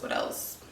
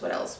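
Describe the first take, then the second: First: A soft whisper while thinking of the next tip; whispered to herself. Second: Said in the usual way. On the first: Real, not acted. Mom pausing her pregnancy tips list, whispering to herself. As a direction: whisper it to yourself, searching your memory.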